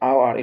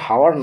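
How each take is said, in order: First: The word starts with a vowel, no h. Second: The word starts with an h sound. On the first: The speaker calls it right. "আওয়ার এটা কিন্তু" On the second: The speaker calls it wrong. "হাওয়ার না"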